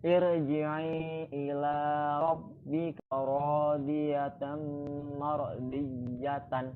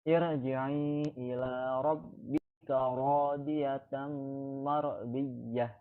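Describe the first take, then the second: First: The last word ends with a full 'tan' syllable. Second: The last word ends with a soft h sound. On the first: The recitation continues without stopping. "Dibacanya aslinya seperti ini ya" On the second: The reciter stops at the end of the verse. "dibaca sebagai ayat di akhir, ayat diwakafkan"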